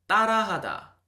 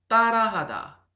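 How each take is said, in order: No difference in how they are said.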